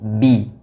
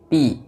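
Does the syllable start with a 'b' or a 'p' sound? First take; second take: b; p. First: The syllable starts with a 'b' sound. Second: The syllable starts with a 'p' sound. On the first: The speaker calls it right. "tapi bi" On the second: The speaker calls it wrong. "jangan membaca huruf ba seperti huruf p"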